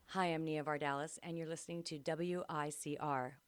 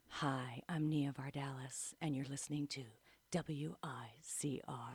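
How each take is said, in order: First: It is said in her normal voice. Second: It is said in a radio announcer voice.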